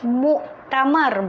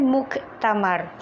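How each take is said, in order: First: A glottal stop comes before the t. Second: A clear k sound comes before the t. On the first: The speaker calls it right. "sebutan dia adalah muktamar" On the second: The speaker calls it wrong. "bukan muktamar"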